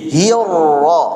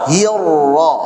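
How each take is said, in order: No difference in how they are said.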